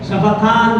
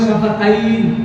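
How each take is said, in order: First: The last syllable has a plain 'an' vowel. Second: The last syllable has an 'ain' diphthong. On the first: The speaker calls it right. "শাফাতান বলে" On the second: The speaker calls it wrong. "অনেকে বলে শাফাতাইন, শাফাতাইন বলে না"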